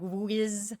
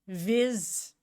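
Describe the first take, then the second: First: The syllable begins with a W sound. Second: The syllable begins with a V sound. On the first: "you're not supposed to pronounce the W like whiz" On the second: "Like if it was German"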